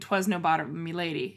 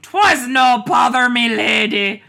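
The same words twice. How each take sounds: First: It is said in a plain voice. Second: It is said in a pirate voice.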